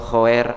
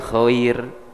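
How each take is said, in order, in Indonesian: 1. Vokalnya dilafalkan seperti e. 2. Vokalnya dilafalkan seperti i. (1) "masalah daya e gitu" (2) "Di i kan jadi khair gitu"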